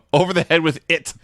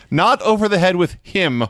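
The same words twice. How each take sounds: First: IT landed firmly as the punchline word; stress on IT. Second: HIM set up as the wrong word; stress on HIM. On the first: Host relishing the exact quote, stress on "it". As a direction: lean on "it", falling into place. Contrasting him with it. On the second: Host correcting the quote, stress on "him". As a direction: lean on "him" to reject it. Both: Shown as a demonstration.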